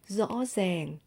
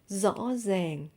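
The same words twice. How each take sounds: First: It is said in a Northern Vietnamese accent. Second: It is said in a Northern Vietnamese accent.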